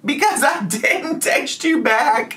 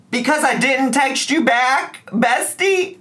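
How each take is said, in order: First: High mocking voice, slower, breaking into a laugh; mock him again and crack up; imitating the ex high and slow while laughing; laughing mockery. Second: High mocking sing-song, much higher; imitating the ex in a high taunting voice; mocking whiny ex. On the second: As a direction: sneer it back at him in a high voice. Mocking the ex's complaint.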